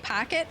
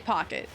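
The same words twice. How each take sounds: First: The first vowel sounds like an 'a' sound. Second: The first vowel is the usual 'o' sound. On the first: "but I say pocket sometimes" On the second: "like how I normally do"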